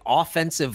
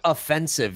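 First: The stress is on the first syllable. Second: The stress is on the second syllable. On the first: It means the attacking side in football. The speaker calls it wrong. "like they're playing for the. Bills?" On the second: It means insulting or rude. The speaker calls it right. "You're not saying offensive"

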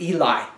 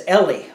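First: The name is said the usual English way. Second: The name is said the Hebrew way. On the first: This is how most people say it. The speaker calls it wrong. "I always pronounced it Eli. I've always heard people pronounce it Eli" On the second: This is how a native Hebrew speaker says it. The speaker calls it right. "as a Hebrew, he pronounced it as Eli"

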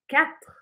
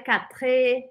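First: The word ends on the R sound. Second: The word ends with a vowel after the R. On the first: The speaker calls it right. "é quatre, quatre. Eu vou terminar o som no R" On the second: The speaker calls it wrong. "não é quatre"

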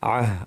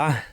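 First: The h sound carries audible voice. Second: The h sound is only a breath of air. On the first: The speaker calls it right. "আহ আওয়াজ থাকবে" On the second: The speaker calls it wrong. "অনেকের শুধু বাতাস হয়ে যায় আহ এইভাবে বলেন, এভাবে না"

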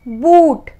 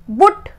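First: The vowel is long and drawn out. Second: The vowel is short and clipped. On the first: The speaker calls it right. "बड़ा ऊ हो गया बूट" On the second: The speaker calls it wrong. "बुट नहीं बोला ना"

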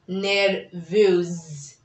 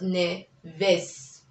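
First: The middle consonant is a buzzing Z sound. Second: The middle consonant is a hissing S sound. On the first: The speaker calls it right. "S automatically gives us the sound Z. And that's why we have nerveuse" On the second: The speaker calls it wrong. "And not nervous. Instead of sound, we have Z sound"

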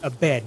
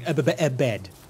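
First: The word is said plainly with no stutter. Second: A stuttered eh sound comes before the word. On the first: "if you're saying" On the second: "you have to say eh before a word"

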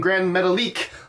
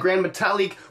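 First: The stress is on the last syllable. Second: The stress is on the second-to-last syllable. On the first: The speaker calls it wrong. "like you put the emphasis on the last syllable" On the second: The speaker calls it right. "it's supposed to go in the second to last syllable"

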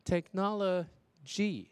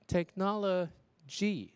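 First: Every syllable of the word is pronounced. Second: The same.

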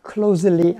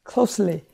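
First: The middle consonant is a voiced z sound. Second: The middle consonant is a voiceless s sound. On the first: The speaker calls it wrong. "closely 아닙니다" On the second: The speaker calls it right. "무성음, s. 성대의 진동이 없습니다"

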